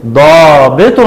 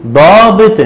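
First: ضابط ending in "-tun"; damma tanween. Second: ضابط ending in "-tin"; kasra tanween. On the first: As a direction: say ضابط as "daabitun". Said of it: "وعند التنوين بالضم هنقول". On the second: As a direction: say ضابط as "daabitin". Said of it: "وعند التنوين بالكسر هنقول". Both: Shown as a demonstration.

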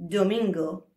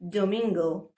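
First: Careful Spanish domingo; teacher modelling domingo; Spanish word. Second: Careful Spanish Domingo repeated; Domingo again, do-meen-go; teacher modelling Domingo for repetition; Spanish word. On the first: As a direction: say domingo as do-meen-go. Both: Shown as a demonstration. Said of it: "So here we go".

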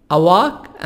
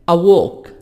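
First: أواك with open 'ah' vowel, American 'a wahk'; American-accented 'a walk'; American pronunciation. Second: أووك with rounded 'aw' vowel, British 'a wawk'; British-accented 'a walk', louder; British pronunciation. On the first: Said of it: "أمريكان". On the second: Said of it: "بريتش". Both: Shown as a demonstration.

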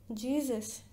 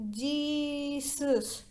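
First: Said in the usual way. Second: Long wailing Jesus that fades out like a candle; Nancy's eerie fading moan of Jesus; drawn-out moan. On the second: Shown as a demonstration. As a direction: stretch Jesus into a moan and let it die away. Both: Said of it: "like this".

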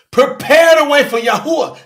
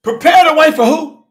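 First: "Yahuwah" landed as the loud answer; emphatic answer. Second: Loud, pointed "who" asked back at the room; challenging question. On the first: Preacher answering his own question to the congregation, emphatic. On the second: Preacher quizzing his congregation, loud and pointed. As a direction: demand the answer from the crowd. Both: Real, not acted.

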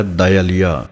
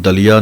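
First: ਦਇਆਲੀਆ as "da-i-aliya", glide after da; sounded i vowel. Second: ਦਲੀਆ as short "daliya", no y glide; shortened misreading. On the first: Teacher modelling correct reading, ਦਇਆਲੀਆ as "da-i-aliya". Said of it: "ਦੱਦਾ ਈੜੀ ਸਿਹਾਰੀ ਦੀ ਆਵਾਜ਼ ਹੈ". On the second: Teacher showing what not to say, ਦਲੀਆ as short "daliya". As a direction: clip out the i sound, just ਦਲੀਆ. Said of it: "ਇਹਨੂੰ ਦਲੀਆ ਨਹੀਂ ਕਹਿਣਾ ਹੈ". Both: Shown as a demonstration.

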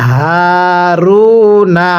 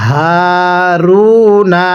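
First: হারুনা with a voiced হা, drawn out in slow recitation; correct pronunciation. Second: হারুনা with the হা breathed out as air; breathy হা in হারুনা, shown as the mistake; wrong pronunciation. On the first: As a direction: voice the হা in হারুনা and stretch it. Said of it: "তাহলে কিভাবে পড়তে হবে". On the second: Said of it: "অনেকে এটাকে হারুনা এরকমভাবে পড়ি". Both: Shown as a demonstration.

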